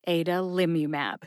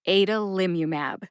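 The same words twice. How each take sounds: No difference in how they are said.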